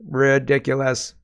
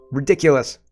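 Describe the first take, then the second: First: RIDICULOUS stretched slowly, syllable by syllable; drawn-out emphasis. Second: Said in the usual way. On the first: Real, not acted. Repeats the word slowly for emphasis.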